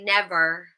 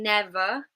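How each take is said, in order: First: It ends with a clearly pronounced R sound. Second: It ends in a schwa with no R sound. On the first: "the rhotic R in Scottish accents, in American English accents" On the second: "instead of saying never"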